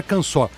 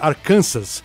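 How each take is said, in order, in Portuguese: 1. O s final é mudo. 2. O s final é pronunciado. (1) "Sabe que fala Arkansas?" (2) "Escreve Arkansas"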